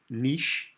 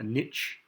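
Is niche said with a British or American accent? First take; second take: British; American. First: It is said with a British accent. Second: It is said with an American accent.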